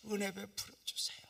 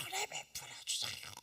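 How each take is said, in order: First: Breathy whispered prayer on 은혜; whispered plea. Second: 은혜 cried much higher, rising; high crying plea. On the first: Pastor whispering his plea to God. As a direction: whisper 은혜 베풀어 주세요 as a plea. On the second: Pastor crying out the plea again, higher. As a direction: lift 은혜 high and plead. Pleading prayer repeated higher. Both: Retold or imitated.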